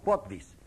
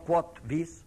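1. Las dos palabras se dicen pegadas, como una sola. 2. Las dos palabras se dicen como palabras separadas. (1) "hay que pegar la palabra" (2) "no quod vis, lo que quieras"

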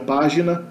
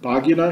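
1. As consoantes são pronunciadas como em português. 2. Usa a pronúncia latina clássica antiga. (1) "as consoantes são pronunciadas exatamente como em português" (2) "na pronúncia clássica da antiguidade"

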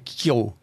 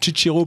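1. On le prononce selon le style classique restitué. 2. On le prononce selon le latin italien. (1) "la quatrième, c'est la restituée" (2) "la prononciation italienne"

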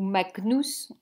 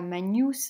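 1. Le g est un g dur devant n. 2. Le g et le n se fondent en un son ny. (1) "qu'on prononce toutes les lettres et que le G était toujours g, un G dur" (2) "On a vu qu'on ne disait pas magnus"

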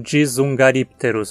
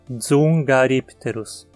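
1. Uma vogal i extra separa o dz inicial. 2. O dz inicial não tem vogal no meio. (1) "peço para tentar não pronunciar como dzungaripterus" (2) "Não tem um I entre o D e o S. É uma sílaba só, dzum"

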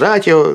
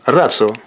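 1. Согласная перед 'io' звучит как простая 't'. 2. Согласная перед 'io' звучит как 'ts'. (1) "Иногда произносится «ратио», ... но неправильно это" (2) "И поэтому читается как «ци»"

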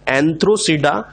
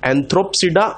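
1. यह शब्द बिना 'p' की आवाज़ के बोला जाता है। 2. यह शब्द 'p' की आवाज़ के साथ बोला जाता है। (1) "पी साइलेंट है" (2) "ना कि"

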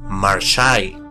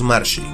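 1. La i final se separa de marsh. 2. La palabra se dice de corrido, como una sola unidad.

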